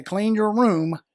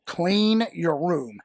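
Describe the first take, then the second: First: Firm parent command. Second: Slow parent command. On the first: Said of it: "When I look at them and say". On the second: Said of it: "I tell my kids that all the time". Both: Shown as a demonstration.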